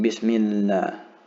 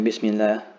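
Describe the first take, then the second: First: The doubled consonant is held for two counts. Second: The doubled consonant is said short, not held. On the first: The speaker calls it right. "hold the letter it is uh, above for two counts" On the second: The speaker calls it wrong. "instead of saying"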